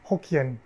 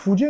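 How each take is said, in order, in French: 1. Le mot commence par un son H. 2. Le mot commence par un son F.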